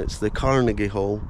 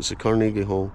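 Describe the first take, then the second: First: Carnegie is said the American way. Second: Carnegie is said the Scottish way.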